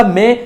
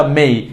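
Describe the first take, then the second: First: মে with a plain e; wrong pronunciation. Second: মেই with an i glide; correct pronunciation. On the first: Teacher contrasting for learners, মে with pure e. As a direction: leave মে without a glide. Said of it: "ভুলটা". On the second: Teacher contrasting for learners, gliding মেই. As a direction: slide e into i on মেই. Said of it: "সঠিকটা". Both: Shown as a demonstration.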